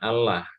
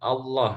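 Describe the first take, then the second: First: The L is said light and thin. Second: The L is said heavy and thick. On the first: The speaker calls it wrong. "bukan Allah. Kalau Allah itu berarti lamnya itu dibaca tarkik" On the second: The speaker calls it right. "makanya pengucapannya itu Allah ya"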